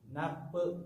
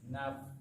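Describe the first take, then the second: First: The final consonant ends with a small bouncing release. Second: The final f releases a little breath of air. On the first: The speaker calls it wrong. "dijadikan kol-kolah" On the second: The speaker calls it right. "ada angin keluar sedikit"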